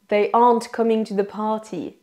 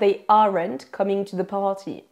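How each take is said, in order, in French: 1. Le R dans aren't est réduit. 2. Le R dans aren't est prononcé fortement.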